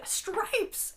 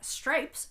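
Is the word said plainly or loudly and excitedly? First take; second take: loudly; plainly. First: The word is said loudly and excitedly. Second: The word is said plainly, at normal loudness.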